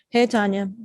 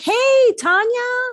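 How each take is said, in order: First: The greeting sounds flat and unenthusiastic. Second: The greeting sounds warm and excited. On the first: The speaker just wants to get through this. The speaker calls it wrong. "oh, here we go again" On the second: The speaker is glad to see the listener. The speaker calls it right. "oh, you're excited to see me"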